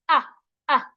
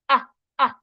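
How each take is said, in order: The two takes are said the same way.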